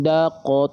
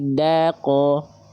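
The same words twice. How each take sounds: First: The d syllable is said with a thick vowel. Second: The d syllable is said with a thin vowel. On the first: The speaker calls it wrong. "bukan daqo" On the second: The speaker calls it right. "Tipiskan vokal A-nya"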